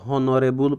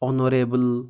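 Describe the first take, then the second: First: The word begins with an h sound. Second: The word begins with a vowel sound. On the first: The speaker calls it wrong. "ହନରେବୁଲ ପଢ଼ୁନାହାନ୍ତି" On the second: The speaker calls it right. "ଏଠି ଏଚ୍ଟାକୁ ଆମେ ପଢ଼ୁନାହାନ୍ତି"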